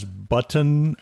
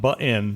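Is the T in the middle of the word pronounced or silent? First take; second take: pronounced; silent. First: The middle T is clearly pronounced. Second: The middle T is silent, not pronounced. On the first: The speaker calls it right. "when someone says button" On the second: The speaker calls it wrong. "it comes out button"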